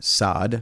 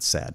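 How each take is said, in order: First: The name is said differently from the word sad. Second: The name is said like the word sad. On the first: The speaker calls it right. "Saad, not sad" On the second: The speaker calls it wrong. "not sad"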